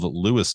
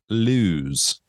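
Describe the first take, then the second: First: It sounds like the name Lewis. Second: It sounds like the word Lowe's. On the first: The speaker calls it right. "to make sure I was saying it right" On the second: The speaker calls it wrong. "out of towners like myself will call it Lewes"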